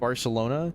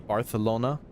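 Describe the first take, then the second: First: The c is said with an s sound. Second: The c is said with a th sound. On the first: The speaker calls it right. "which should be pronounced Barcelona" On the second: The speaker calls it wrong. "speaks with, like, a lisp as an accent. So they all say Barcelona"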